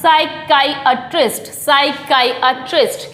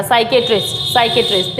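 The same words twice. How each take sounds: First: "साइकियाट्रिस्ट" as sai-KAI-uh-trist, slow; "साइकियाट्रिस्ट" with a long kai, then uh-trist; correct pronunciation. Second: "साइकियाट्रिस्ट" as sai-ke-trist, low; "साइकियाट्रिस्ट" run together with short ke; common mispronunciation. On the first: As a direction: model "साइकियाट्रिस्ट" slowly, syllable by syllable. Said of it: "right pronunciation जो है". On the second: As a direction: say "साइकियाट्रिस्ट" the common way, three syllables. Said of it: "ये साइकियाट्रिस्ट नहीं होता है". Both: Shown as a demonstration.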